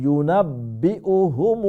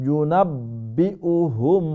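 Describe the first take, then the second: The two takes are said the same way.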